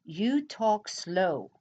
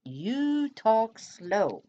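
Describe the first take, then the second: First: Drawn out, unhurried; mock slow reading; slow comment read. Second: Very slow, higher mock drawl; hammed-up slow talk; exaggerated slow drawl. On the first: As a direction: read the comment back slowly. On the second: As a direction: stretch it out even more to tease. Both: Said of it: "here's another one".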